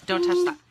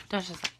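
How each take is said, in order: First: Higher, louder sudden don't touch that; sharp warning. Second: Said in the usual way. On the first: Real, not acted. Mom to toddler reaching for something, sharp loud warning.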